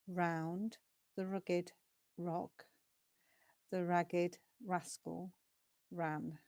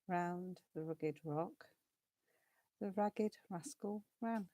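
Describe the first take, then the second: First: It is spoken slowly and carefully. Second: It is spoken very quickly. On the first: "nice and slow" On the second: "And faster"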